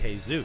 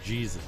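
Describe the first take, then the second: First: The name is said with Spanish sounds. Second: The name is said with English sounds. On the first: The speaker calls it right. "But you say Jesus" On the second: The speaker calls it wrong. "You would never say Jesus"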